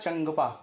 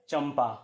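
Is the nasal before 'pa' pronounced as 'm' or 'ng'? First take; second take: ng; m. First: The nasal is pronounced as 'ng' before 'pa'. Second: The nasal is pronounced as 'm' before 'pa'. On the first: The speaker calls it wrong. "जो कि अशुद्ध है" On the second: The speaker calls it right. "इसलिए इसका सही उच्चारण होगा चंपा"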